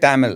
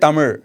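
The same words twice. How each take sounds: First: The final consonant is a plain L sound. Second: The final consonant is a curled-tongue zh sound. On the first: This is how most people commonly say it. The speaker calls it wrong. "They say" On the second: This is the native way few outsiders use. The speaker calls it right. "Not many people say"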